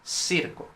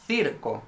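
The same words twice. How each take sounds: First: The word begins with an s sound. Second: The word begins with a th sound. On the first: This is how Latin American speakers say it. "they would say circo" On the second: This is the speaker's own variety, not the Latin American one. "they wouldn't say circo"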